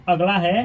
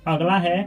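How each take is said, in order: The two takes are said the same way.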